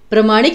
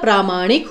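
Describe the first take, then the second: First: The first syllable has a short 'a' vowel. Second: The first syllable has a long 'aa' vowel. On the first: The speaker calls it wrong. "नहीं होता" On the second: The speaker calls it right. "होता है"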